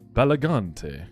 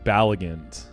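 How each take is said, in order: First: The ending does not rhyme with elegant. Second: The ending rhymes with elegant. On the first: The speaker calls it wrong. "is that how you say it?" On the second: The speaker calls it right. "Rhymes with elegant"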